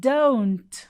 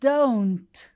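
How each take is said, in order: No difference in how they are said.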